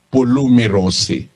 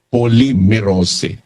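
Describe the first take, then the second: First: The first syllable has an oo vowel. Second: The first syllable has an o vowel. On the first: It follows the dictionary's pronunciation guide. "kung babasahin mo dito sa given pronunciation sa dictionary ng Greek" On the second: It is how people usually read it. "pangkaraniwan binabasa nila ito"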